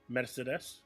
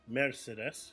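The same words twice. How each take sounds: First: The R sound is short. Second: The R sound is drawn out. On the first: "how we say it in Turkish" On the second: "in German they kind of uh, elongate the R a little bit more"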